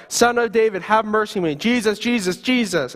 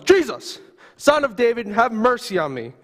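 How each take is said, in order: First: Yelling out. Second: Screaming out. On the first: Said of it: "You continue to yell". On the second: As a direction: cry out to be heard over a crowd. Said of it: "you start screaming at the top of your lungs". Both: Acted.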